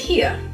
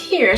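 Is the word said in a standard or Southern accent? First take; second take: Southern; standard. First: It is said in a Southern accent. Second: It is said in a plain standard accent.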